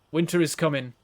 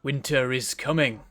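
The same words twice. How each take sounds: First: Put-on light Northern English accent on "Winter is coming", a flat northern u in "coming"; a mild Game of Thrones northerner, lightly done. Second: Slow, drawn-out Winter is coming with a falling end; ominous Game of Thrones quote. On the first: Streamer quotes Game of Thrones to show northerners, northern accent. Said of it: "northerners actually talk like they do in, in Game of Thrones".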